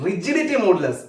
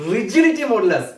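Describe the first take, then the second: First: Said in the usual way. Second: rigidity modulus said again, a bit firmer, with the stress on rigidity; repeated for emphasis. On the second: Shown as a demonstration. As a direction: say rigidity modulus once more, firmly, for the class to remember. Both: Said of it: "ഒന്നുകൂടെ പറഞ്ഞേ".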